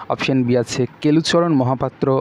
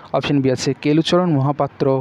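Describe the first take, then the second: No difference in how they are said.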